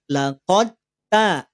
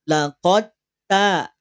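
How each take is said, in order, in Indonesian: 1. Bunyi d langsung melebur ke dalam t. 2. Bunyi d langsung melebur ke dalam t.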